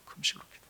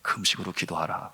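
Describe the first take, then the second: First: Whispered command, barely audible; hushed echo of the message; Holy Spirit's voice. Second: Low, soft inner voice; a quiet, restrained command; Holy Spirit's voice. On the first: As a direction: breathe it as an inner prompting. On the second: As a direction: say it low, as a voice in the heart. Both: Retold or imitated. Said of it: "성령께서 제 마음에 주시는 음성은".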